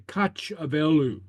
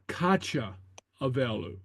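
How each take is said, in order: First: The two words join with one vowel dropped. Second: Both vowels are kept where the words meet. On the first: The speaker calls it right. "we say" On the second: The speaker calls it wrong.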